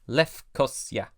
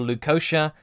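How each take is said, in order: First: The name is said with a Greek pronunciation. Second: The name is said with an English pronunciation. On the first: "Having learned my lesson with Greek pronunciations, I defaulted to Lefkosia" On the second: "the anglicised versions"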